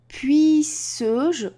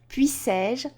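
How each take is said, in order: First: The verb ends in a silent e before 'je'. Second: The verb ends in an 'é' sound before 'je'. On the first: The speaker calls it wrong. "je ne mettais pas le E, ça donnerait puisse-je" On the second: The speaker calls it right. "c'est pour cela qu'on met un et"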